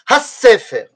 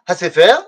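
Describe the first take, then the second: First: The s sound after ha is pressed and doubled. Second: The s sound after ha is short and single. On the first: The speaker calls it right. "on doit dire Ha Sefer" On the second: The speaker calls it wrong. "on ne doit pas dire Ha Sefer"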